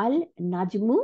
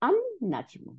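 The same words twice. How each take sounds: First: আল নাজমু with the L of আল sounded; unassimilated article. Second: আন নাজমু with L silent, N doubled; high-pitched আন নাজমু, lam turned into N; assimilated lam. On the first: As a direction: say আল নাজমু as two words, clear L. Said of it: "লামটা কিন্তু আর উচ্চারণ হইল না". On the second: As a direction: merge the article into a held N in আন নাজমু. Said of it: "নুনের সাথে যোগ হয়ে গেল". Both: Shown as a demonstration.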